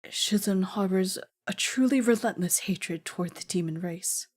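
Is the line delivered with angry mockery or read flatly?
angry. It is acted mockingly with suppressed anger. The speaker calls it right. "Is that better?"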